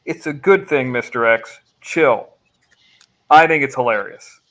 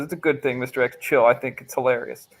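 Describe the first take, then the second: First: Explaining the message by how it is phrased; read with meaning. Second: Reading the viewer's message word for word; read as written. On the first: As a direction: read it the way he meant it, breaking at the right spots. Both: Shown as a demonstration. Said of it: "I think it means this".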